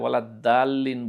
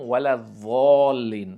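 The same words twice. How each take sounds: First: The consonant is pronounced as a plain d sound. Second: The consonant is pronounced as a z sound. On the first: "খুব অল্প সংখ্যক ভুল আবার দা দিয়ে হয়" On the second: "ভুল করে আমরা য দিয়ে পড়ি"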